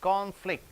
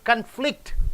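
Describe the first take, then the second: First: The stress is on the first syllable. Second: The stress is on the second syllable. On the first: It is used as a noun. "can should be stressed" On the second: It is used as a verb. "flict should be stressed"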